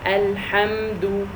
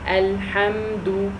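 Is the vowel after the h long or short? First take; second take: short; short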